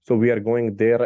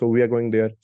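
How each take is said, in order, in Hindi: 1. यह भारी रूसी लहजे में बोला गया है। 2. यह सादे, सामान्य लहजे में बोला गया है। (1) "सो वो हैवी टोन में बोलते हैं" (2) "हम तो बोलते हैं नॉर्मली"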